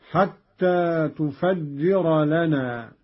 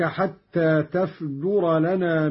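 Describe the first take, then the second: First: "تفجر" as tufajjira, slow; doubled jim. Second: Said in the usual way. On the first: Shown as a demonstration. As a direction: slowly recite "تفجر" with u on ta, doubled j: tu-faj-ji-ra. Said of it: "وكسر الجيم مشددة". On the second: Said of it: "قرأ قالون بضم التاء وفتح".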